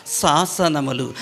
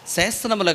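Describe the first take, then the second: First: శాసనములు said properly as saasanamulu, slow and clear; correct pronunciation. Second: శాసనములు said wrongly as sesanamulu, with an e sound; wrong pronunciation. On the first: Pastor correcting a child's reading of శాసనములు. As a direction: stretch the long "saa" in శాసనములు. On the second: Pastor showing the children the wrong way to say శాసనములు. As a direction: say శాసనములు with a flat "se" at the start. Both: Shown as a demonstration. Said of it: "శాసనములు కాదు శాసనములు".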